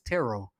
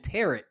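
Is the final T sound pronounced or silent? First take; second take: silent; pronounced. First: The final T sound is silent. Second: The final T sound is pronounced. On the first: The speaker calls it right. "So it's tarot" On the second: The speaker calls it wrong. "I've been pronouncing the T at the at the end of the word"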